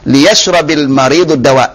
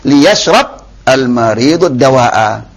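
First: The first word runs straight into the next. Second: The first word stops before a separate article. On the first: The speaker calls it right. "itu kalau dibaca wasal" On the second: The speaker calls it wrong. "Kalau enggak wasal"

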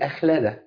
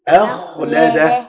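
First: The kh sound is soft and weak. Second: The kh sound is heavy and strong. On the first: The speaker calls it wrong. "وخلي الخاء ايه متدلعه كده ضعيفه" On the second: The speaker calls it right. "الخاء عندي هنا مفخمه والهمزه فيها مرققه"

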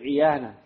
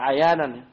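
First: The first vowel is a close 'i' sound. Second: The first vowel is an open 'a' sound. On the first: The speaker calls it right. "tapi iyanan" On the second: The speaker calls it wrong. "jadi bukan dibaca ayanan"

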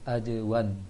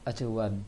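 First: The j is said with a bouncing release. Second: The j sounds like a c, without bouncing. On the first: The speaker calls it right. "baca J yang mantul" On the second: The speaker calls it wrong. "jangan acewan"

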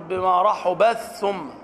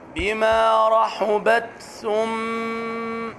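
First: The t sound is merged into the th. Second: The t sound is clearly pronounced before th. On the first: The speaker calls it wrong. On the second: The speaker calls it right.

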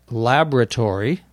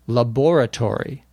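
First: The middle O sound is dropped. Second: The middle O sound is clearly heard. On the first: "as if there were no O in the middle" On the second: "you can definitely hear the O in"

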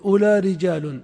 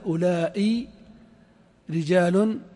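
First: The first word ends short without a glottal stop. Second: The first word has a long vowel and glottal stop. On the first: This is another regional dialect's form. "والتميميون يجعلونه مقصورا يعني ألف بلا همزة" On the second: This is one regional dialect's form. "فالحجازيون يمدون يجعلون همزة بعد الألف"

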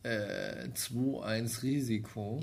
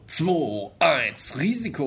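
First: The phrase is said flatly, without dramatic emphasis. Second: The phrase is said with dramatic, forceful emphasis. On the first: The speaker calls it wrong. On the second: The speaker calls it right.

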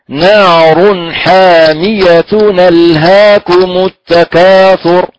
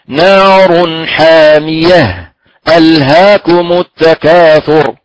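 First: The words run together without any break. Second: A brief breathless pause follows 'hamiya'. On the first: "إذن هنا الوصل" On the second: "والسكت طب الحال بدون تنفس"

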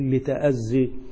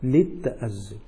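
First: The consonant is pronounced single, without doubling. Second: The consonant is pronounced doubled, with gemination. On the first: The speaker calls it wrong. "لا بالتخفيف، لا نقول لتأذي" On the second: The speaker calls it right. "بالتشديد"

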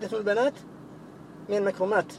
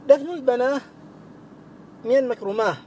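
First: The plural words end with a t sound. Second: The plural words end with an h sound. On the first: This is the usual form. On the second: This is the rare pausal form that was heard.

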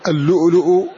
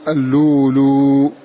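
First: The hamza is pronounced as a glottal stop. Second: The hamza is replaced by a long vowel.

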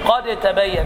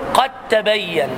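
First: The dal is pronounced separately before the ta. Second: The dal merges into a doubled ta sound. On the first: The speaker calls it wrong. "لا تقول" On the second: The speaker calls it right. "الدال مع التاء يجب الإضغام، فتقول"

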